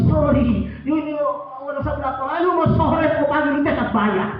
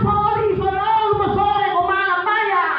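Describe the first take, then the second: First: Mock foreigner. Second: High, loud put-on voice answering back; mock Sabu reply. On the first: Foreigner scolds fish seller in story. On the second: The Sabu fish seller throws the words back, high and loud. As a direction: squeak it back at him, mocking.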